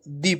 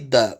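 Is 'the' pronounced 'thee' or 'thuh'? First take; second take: thee; thuh. First: The word is said with a long 'ee' vowel. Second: The word is said with a short 'uh' vowel. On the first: The speaker calls it right. "इसको दी पढ़ेंगे" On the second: The speaker calls it wrong. "न कि द"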